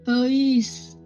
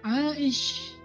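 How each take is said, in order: First: It begins with a plain 'e' sound. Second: It begins with a throaty 'ai' sound. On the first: This is the Sundanese adapted form. "Sampai di Sunda jadinya Eis" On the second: This is the original Arabic form. "panggilan Aisyah"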